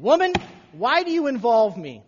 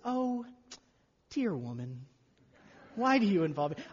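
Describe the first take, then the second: First: It is said in a harsh tone. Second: It is said in a sweet tone.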